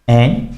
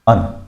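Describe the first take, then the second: First: The word has a full 'a' vowel. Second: The word has a short reduced 'uh' vowel. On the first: "एन का strong में एन" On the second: "वीक में देखें तो अन"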